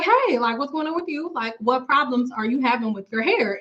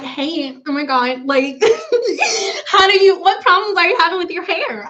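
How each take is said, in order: First: Said in the usual way. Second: Over-the-top giddy hello, laughing through it; mock bubbly greeting. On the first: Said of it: "But I'll be like". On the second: Shown as a demonstration. Greeting a new hair client, hammed-up giddy with laughs. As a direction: gush and giggle like a fake-excited host. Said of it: "I don't talk like that".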